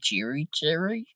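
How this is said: It is said in a northern accent.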